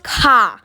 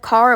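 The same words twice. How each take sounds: First: The word is said in a British accent. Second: The word is said in an American accent. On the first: "like a British accent when I said car" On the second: "Instead of car"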